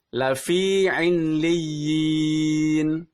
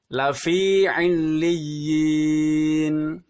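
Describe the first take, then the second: The two takes are said the same way.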